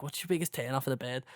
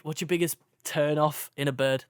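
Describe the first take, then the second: First: Quick, softer Scouse quote; Scouse lad. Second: Said in the usual way. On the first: Retold or imitated. Retelling the lads' chat, in a light Scouse accent. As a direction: lightly imitate a Scouse lad asking his mate. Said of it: "it's just these Scouse lads". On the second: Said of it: "um, no".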